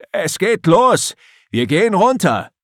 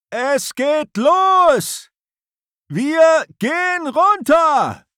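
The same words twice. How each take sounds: First: High, loud call across the deck; shouting. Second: High, slow shout against a storm; shouting over wind. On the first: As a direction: call it out as he nears. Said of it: "ruft Erik erneut". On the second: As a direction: bellow it into the gale. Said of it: "versucht Erik gegen den Sturm anzubrüllen". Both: Acted.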